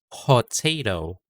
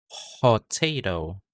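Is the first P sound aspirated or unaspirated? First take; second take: aspirated; aspirated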